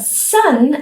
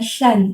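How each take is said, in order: First: The s sound is clear and central. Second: The s sound is wet and slushy. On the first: The speaker calls it right. "instead of sun" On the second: The speaker calls it wrong. "It's very wet, slushy sound"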